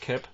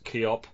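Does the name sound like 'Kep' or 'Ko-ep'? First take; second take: Kep; Ko-ep. First: The name is said with one short vowel. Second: The name is said with two vowel sounds. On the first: This is the way the name is usually heard. "pronounced Kep. That's how I've always heard it" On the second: This follows the way the name is spelled. "people pronounce it as they see it as Keop"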